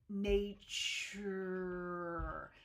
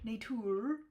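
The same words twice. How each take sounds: First: The t before the u is palatalized. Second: The t before the u is plain. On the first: The speaker calls it right. "sticky U is kind of the same idea" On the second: The speaker calls it wrong. "you don't go nature"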